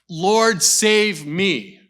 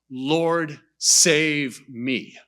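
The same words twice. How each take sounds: First: It is said fast and urgently. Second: It is said slowly and deliberately.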